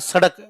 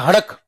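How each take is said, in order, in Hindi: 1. यह शब्द 's' की आवाज़ से शुरू होता है। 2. यह शब्द 'h' की आवाज़ से शुरू होता है। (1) "ये कोई नहीं कहता सड़क" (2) "राजस्थान में आज भी स को ह बोला जाता है"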